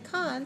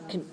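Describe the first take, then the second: First: The vowel is full and clear. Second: The vowel is short and reduced. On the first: The speaker calls it wrong. "don't say con" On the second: The speaker calls it right. "say con, con, very small"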